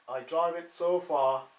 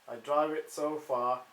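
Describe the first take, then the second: Both takes have the same delivery.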